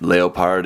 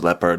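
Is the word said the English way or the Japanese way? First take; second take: Japanese; English. First: It is said like the Japanese katakana reading. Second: It is said like the English animal name. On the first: The speaker calls it wrong. "it's not leopard" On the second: The speaker calls it right. "it's just leopard like the animal"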